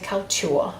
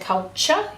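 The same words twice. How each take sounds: First: The middle is said as a separate 't-y' sound. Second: The middle is said with a 'ch' sound. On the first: This careful form helps recall the spelling. "when we're spelling, we say culture, and we are much more posh" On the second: This is the everyday way of saying it. "normally we say culture in Australian English, we say kind of a ch"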